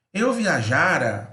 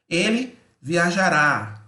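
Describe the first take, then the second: First: "viajara" with the middle "ja" stressed, final "ra" light. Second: "viajará" with the final "rá" stressed and strong; stress on the last syllable. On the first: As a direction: say "viajara" slowly, leaning on "ja". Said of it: "o já é mais forte". (acento tônico em "ja" de "viajara") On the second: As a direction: say "viajará" slowly, hitting "rá" at the end. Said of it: "O rá é mais forte". (acento forte no "rá" de "viajará") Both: Shown as a demonstration.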